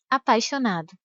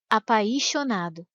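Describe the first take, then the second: First: The i is weak and very short. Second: The i is strong and drawn out. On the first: The speaker calls it right. "e não" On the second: The speaker calls it wrong. "Se o i tivesse um som mais forte e mais demorado, a palavra seria pronunciada assim"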